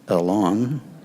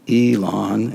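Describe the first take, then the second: First: The name is said with its original Hebrew pronunciation. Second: The name is said with a Southern American pronunciation. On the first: This is how the name is said in Hebrew. "instead of" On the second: This is how the name is said locally. "we speak Southern Hebrew here"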